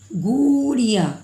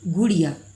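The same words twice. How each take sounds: First: The first vowel is drawn out long. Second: The first vowel is said short. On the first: The speaker calls it wrong. "ऐसे तो हम लोग बोलते नहीं हैं बच्चों" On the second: The speaker calls it right. "Soft sound कम समय के लिए ये छोटी ऊ का प्रयोग करते हैं"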